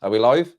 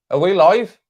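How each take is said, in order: First: Said in the usual way. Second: High, loud rising question; incredulous check. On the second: Real, not acted. Streamer doubts anyone is watching, incredulous loud question. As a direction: call out as if nobody can hear you. Repeats check as nobody answers.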